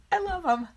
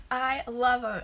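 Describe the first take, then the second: First: High, excited gush of love; thrilled over her own handmade cards; gushing delight. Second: Said in the usual way. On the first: Real, not acted. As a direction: squeal it like you adore them. Gushing over cards she made.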